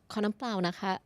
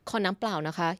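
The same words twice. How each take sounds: First: The voice is small, soft and higher-pitched. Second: The voice is plain and at normal pitch. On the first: It sounds more polite. The speaker calls it right. "considered soft" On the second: It sounds less polite. The speaker calls it wrong. "don't just go like"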